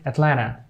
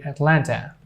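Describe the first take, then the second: First: "Atlanta" said as "at-LAN-uh"; American silent T. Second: Said in the usual way. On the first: Shown as a demonstration. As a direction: drop the last T in "Atlanta". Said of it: "They say Atlanta". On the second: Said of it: "they don't say Atlanta".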